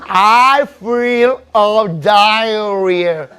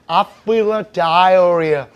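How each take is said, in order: First: The phrase is said at a very slow pace. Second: The phrase is said at a fast pace.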